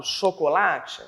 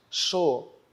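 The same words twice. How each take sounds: First: Said in the usual way. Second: "Chocolate" as cho... co... la... te, spaced out; slow, syllable by syllable. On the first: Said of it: "Quando eu falo chocolate". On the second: Shown as a demonstration. Teacher classifying the word for pupils, slowly split. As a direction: pause after every syllable. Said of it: "a gente classifica falando lentamente".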